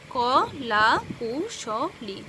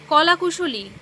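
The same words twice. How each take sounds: First: "ক, লা, কু, শ, লি" with a break after each syllable; "ক, লা, কু, শ, লি" as five separate syllables. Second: Said in the usual way. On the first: Shown as a demonstration. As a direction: count it out in five beats: "ক", "লা", "কু", "শ", "লি". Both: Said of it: "শব্দকে ভেঙে ভেঙে উচ্চারণ".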